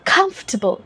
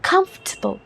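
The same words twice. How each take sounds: First: British accent with a strongly stressed first syllable. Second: The same.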